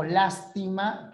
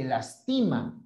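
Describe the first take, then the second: First: Lástima, stressed on the first syllable LÁS. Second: Lastima, stressed on the middle syllable TI. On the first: Teacher showing accent changes meaning, stress on LÁS in lástima. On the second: Teacher showing accent changes meaning, stress on TI in lastima. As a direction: lean on the TI in "lastima". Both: Shown as a demonstration. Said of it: "No es lo mismo lástima que lastima".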